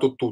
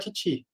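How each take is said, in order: First: It has the plain Portuguese u vowel sound. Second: It has the French vowel sound, lips rounded forward. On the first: "é uma versão aportuguesada" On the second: "Se escreve Tutu, fala Titi"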